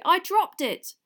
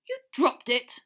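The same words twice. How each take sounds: First: Put-on high, loud boyish protest; earnest explanation. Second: Disbelief. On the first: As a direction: blurt out your explanation. Harry explains himself. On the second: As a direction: throw it back in disbelief. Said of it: "repeated Mister Diggory in disbelief". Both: A narrator's reading.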